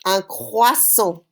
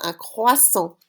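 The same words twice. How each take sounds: First: Un croissant drawn out slowly, kwasɔ; slow model word. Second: Said in the usual way. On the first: Shown as a demonstration. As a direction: say Un croissant slowly for the class to repeat. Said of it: "how to say it in French".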